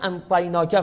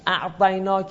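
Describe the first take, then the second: First: The consonant after the first vowel is n. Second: The consonant after the first vowel is ayn. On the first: This is a reading from another dialect. "انطیناک عین رو نون خوندن" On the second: This is the standard reading. "یک مثلا میگم اعطیناک"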